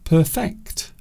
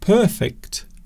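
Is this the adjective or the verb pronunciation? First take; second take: verb; adjective. First: It is pronounced the different verb way. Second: It is pronounced the usual adjective way. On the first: It means working hard to improve something. "we often pronounce the word differently" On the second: It describes something flawless. "instead of saying perfect"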